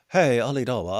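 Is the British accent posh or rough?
posh. It is said in a posh British accent. The speaker calls it wrong. "That's a very sophisticated British accent"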